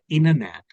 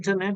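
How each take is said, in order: First: The T after N is dropped. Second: The T after N is clearly pronounced. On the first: "but it is like a internet" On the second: "in India, we say internet"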